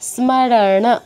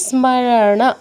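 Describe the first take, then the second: First: The final n is followed by a full vowel. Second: The final n is followed by a full vowel.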